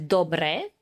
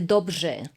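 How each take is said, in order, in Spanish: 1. La r es una r simple. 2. La r se mezcla con una zh zumbante. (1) "en Eslovaquia se dice dobre" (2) "en checo se dice dobře ... es combinación ž y r"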